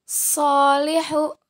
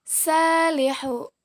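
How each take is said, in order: First: Salihu drawn out, starting with heavy "so"; letter sad. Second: Salihu drawn out, starting with light "sa"; letter sin. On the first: Teacher contrasts two letters for students, Salihu with heavy "so". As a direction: say Salihu slowly as "soolihu". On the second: Teacher contrasts two letters for students, salihu with light "sa". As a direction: say salihu slowly, open long "saa". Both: Shown as a demonstration. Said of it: "Perbandingan antara huruf so dan huruf sa".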